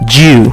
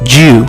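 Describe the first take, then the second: No difference in how they are said.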